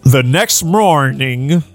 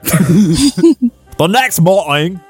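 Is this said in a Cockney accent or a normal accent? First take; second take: normal; Cockney. First: It is spoken in the speaker's ordinary accent. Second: It is spoken in a put-on Cockney accent.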